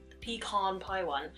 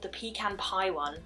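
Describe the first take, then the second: First: Pecan is said in an American way. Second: Pecan is said in a British way.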